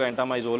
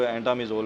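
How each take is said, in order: First: एंटामाइजोल said as en-ta-MAI-zol with a long ai; एंटामाइजोल with a clear "mai" sound; one common pronunciation. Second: एंटामिजोल said as en-ta-mi-zol with a short i; एंटामिजोल with a quick "mi", no diphthong; other common pronunciation. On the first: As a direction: say एंटामाइजोल with the ai diphthong in the third syllable. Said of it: "कुछ लोग एंटामाइजोल भी कहते हैं". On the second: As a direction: say एंटामिजोल with a short "mi" in the third syllable. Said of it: "कुछ लोग एंटामिजोल भी कहते हैं". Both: Shown as a demonstration.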